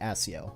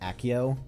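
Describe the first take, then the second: First: It uses the audiobook's pronunciation of the word. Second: It uses the film's pronunciation of the word. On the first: This is how the audiobook narration says it. "In the book, he pronounced it Accio" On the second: This is how the films say it. "they pronounce it like Accio in the movies"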